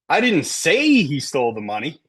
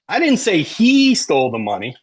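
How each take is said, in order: First: The stress falls on the word say. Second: The stress falls on the word he. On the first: It was communicated some other way, not spoken. "I texted it, right?" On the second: Someone other than him stole it. "Maybe Maria did, right?"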